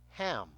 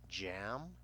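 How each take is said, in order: First: The word begins with an 'h' sound. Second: The word begins with a 'j' sound. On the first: The speaker calls it wrong. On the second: The speaker calls it right.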